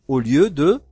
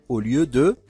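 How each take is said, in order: The two takes are said the same way.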